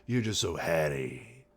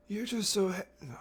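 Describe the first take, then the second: First: A hint of mock Capitol accent; silly Capitol accent. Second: Squeaky high mock Capitol voice, cracking; strained put-on high pitch. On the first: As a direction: try a silly Capitol accent at normal pitch. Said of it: "in her silly capital accent". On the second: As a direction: attempt a very high Capitol voice and break off. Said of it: "High pitch".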